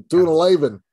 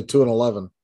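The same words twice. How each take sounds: First: "Two and eleven" high and loud; stressed for effect. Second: Said in the usual way. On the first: Shown as a demonstration. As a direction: punch out "Two and eleven" with emphasis. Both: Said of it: "just say two and eleven".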